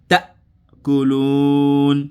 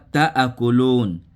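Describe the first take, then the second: First: Ta joins the rest with no extra vowel. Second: An extra vowel separates ta from the rest. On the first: The speaker calls it right. "tu dis ta colonne" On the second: The speaker calls it wrong. "C'est pas ta à colonne"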